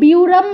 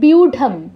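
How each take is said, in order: First: The middle consonant is an r sound. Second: The middle consonant is an aspirated d sound. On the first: The speaker calls it wrong. "এটাকে কেউ বিউরাম বলবেন না" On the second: The speaker calls it right. "ঢয়ের মতো উচ্চারণ"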